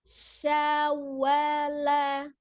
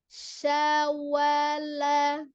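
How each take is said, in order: The two takes are said the same way.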